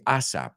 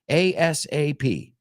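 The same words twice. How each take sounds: First: It is said as one short word. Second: It is spelled out as four letter syllables. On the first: This is how Spanish speakers say it. The speaker calls it wrong. "you guys say ASAP ... that one we don't say" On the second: This is how native speakers say it. The speaker calls it right. "cuatro sílabas"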